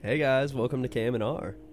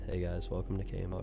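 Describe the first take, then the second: First: It is said while smiling. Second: It is said without smiling.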